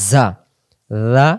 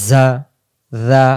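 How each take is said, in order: No difference in how they are said.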